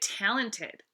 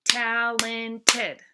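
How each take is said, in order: First: Said in the usual way. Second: "Talented" loud, in three even, separate beats; syllable by syllable. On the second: Shown as a demonstration. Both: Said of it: "Let's clap it out".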